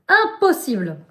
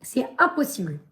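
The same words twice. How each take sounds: First: "Impossible" repeated higher and louder with a firm fall; "Impossible" said louder and higher, final and firm; emphatic repeat. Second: Said in the usual way. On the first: Real, not acted. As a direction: hammer the word "Impossible" with a falling close.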